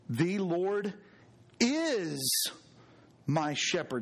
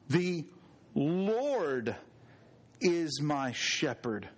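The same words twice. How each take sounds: First: The word is carries the main stress. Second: The word Lord carries the main stress. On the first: He is the shepherd now, in the present. "Something to be said about that present tense" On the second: It is the Lord who is the shepherd. "this is the Lord"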